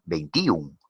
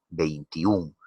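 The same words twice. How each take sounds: First: "veintiún" wrongly stressed on the i, vein-TÍ-un. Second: "Veintiún" with the weight on tiún, the ú strongest; stressed last syllable. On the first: Teacher doubting pupils would say "veintiún" so, wrongly stressed i. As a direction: break "veintiún" at a stressed tí before un. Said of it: "No creo que pronuncien". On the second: Teacher showing which vowel sounds most in "Veintiún", final stress. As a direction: draw out the ú in "Veintiún". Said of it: "la vocal que suena más". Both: Shown as a demonstration.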